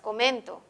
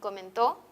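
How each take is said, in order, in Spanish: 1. El acento está en la sílaba central. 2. El acento no está en la sílaba central. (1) "en la penúltima sílaba" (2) "al variar la posición del acento"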